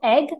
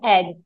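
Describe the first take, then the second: First: The voice rises at the end, like a question. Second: The voice falls at the end, shouted flatly.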